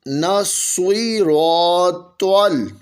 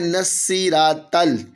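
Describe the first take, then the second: First: The s and t sounds are thick and heavy. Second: The s and t sounds are thin and light. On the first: The speaker calls it right. "पढ़ेंगे दुरुस्त नस्वीरोतल" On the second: The speaker calls it wrong. "लोग गलती करते हैं और पढ़ते हैं नस्सीरातल, तो ये नस्सी यानी सीन नहीं है और ये ता भी नहीं है"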